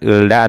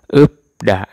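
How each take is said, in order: First: An l sound precedes da. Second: A p sound precedes da. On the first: The speaker calls it wrong. "bukan ulda atau ulfda. Salah ya" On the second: The speaker calls it right. "Jadinya upda"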